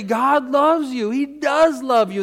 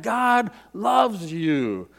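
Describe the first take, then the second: First: Louder, ringing affirmation; with real conviction. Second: Slow gentle statement. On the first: Preacher to the congregation, with full conviction. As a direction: proclaim it like you mean it. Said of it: "Say it with real conviction". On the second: Preacher to the congregation, gently and slowly. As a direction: let it settle slowly. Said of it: "We keep saying that". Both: Shown as a demonstration.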